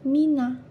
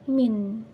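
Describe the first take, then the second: First: The word ends on an added a vowel. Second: The word ends on the consonant n. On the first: A definite article follows the word. "maka min ini dibaca fathah menjadi mina" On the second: No definite article follows the word. "maka akan dibaca min atau nun disukun"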